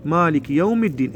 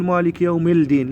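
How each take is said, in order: First: مالك يوم الدين as "yawmid-deen"; silent lam. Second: مالك يوم الدين as "yawmil-deen"; demonstrated mistake, L heard in الدين; wrongly sounded lam. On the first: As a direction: run يوم straight into a doubled d of الدين. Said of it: "هذا اللام مال الدين ما نقوله". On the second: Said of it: "ما نقول". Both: Shown as a demonstration.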